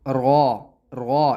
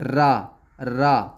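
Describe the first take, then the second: First: The r sounds heavy, with a full mouth. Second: The r sounds thin and light. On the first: "अगर पुर पढ़ेंगे तो इस तरह पढ़ेंगे, यानी कि मुंह भर के आवाज आएगी" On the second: "अगर इसको बारीक पढ़ें तो ऐसे पढ़ेंगे"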